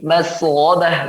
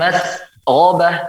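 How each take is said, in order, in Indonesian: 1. Kata itu tersambung halus tanpa jeda. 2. Kata itu terpisah dengan jeda kecil.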